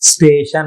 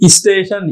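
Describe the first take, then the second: First: The word begins directly with the s. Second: An extra vowel is added before the s. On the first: The speaker calls it right. "स्टेशन होना चाहिए" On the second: The speaker calls it wrong. "ई का प्रयोग गलत है"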